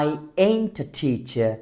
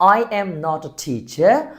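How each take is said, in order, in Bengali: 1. 'am not' শব্দ দুটো ছোট হয়ে 'ain't' হয়ে যায়। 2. 'am not' শব্দ দুটো পুরোপুরি বলা হয়। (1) "am not কে এখানে কি বললাম? ain't" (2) "am not"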